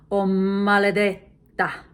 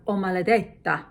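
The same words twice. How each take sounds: First: Maledetta with the m doubled, mmaledetta, slow and loud; doubled consonant. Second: Said in the usual way. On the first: Shown as a demonstration. Teacher shows the doubled m for emphasis in maledetta. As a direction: lean on a long doubled m in maledetta. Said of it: "you double the first consonant". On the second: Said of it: "So instead of".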